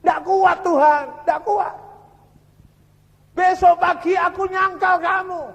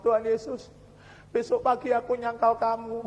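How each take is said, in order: First: High, loud, despairing plea to God; imitated anguished crying out. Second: Hushed, understated plea of a worn-out prisoner; imitated tearful prayer. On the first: Tortured prisoner telling God he cannot endure, loud acted anguish. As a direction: act out a broken prisoner crying out at breaking point. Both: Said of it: "Nangis dia".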